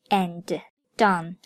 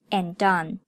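First: The d sound is pronounced twice, separately. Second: The d sound is pronounced only once, linked. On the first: The speaker calls it wrong. "所以不读作and done" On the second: The speaker calls it right. "而读作and done"

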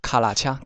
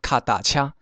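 First: The middle syllable starts with an l sound. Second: The middle syllable starts with a t sound.

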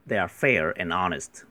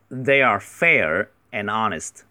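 First: The sentence is read at a normal, quicker pace. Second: The sentence is read slowly and deliberately.

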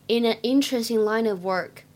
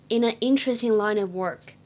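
Both takes have the same delivery.

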